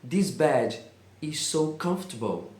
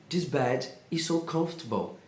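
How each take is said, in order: No difference in how they are said.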